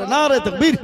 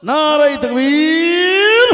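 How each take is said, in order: First: Raised-voice call to the congregation; first takbir call. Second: Loud, high cry with তাকবীর stretched long; rally the crowd at full voice; drawn-out rising shout on তাকবীর; louder takbir cry. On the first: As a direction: lead the crowd in takbir. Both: Real, not acted. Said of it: "আরো জোরে".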